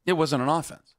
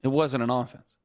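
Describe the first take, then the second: First: "It" hit and rising at the end; stress on IT. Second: "wasn't" hit, a bit lower and falling; stress on WASN'T. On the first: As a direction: lean on "It" in "It wasn't an offense". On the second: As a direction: lean on "wasn't" in "It wasn't an offense". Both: Shown as a demonstration.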